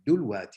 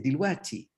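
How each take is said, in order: First: Judeo-Arabic accent, first vowel is u. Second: Cairene Arabic accent, first vowel is i.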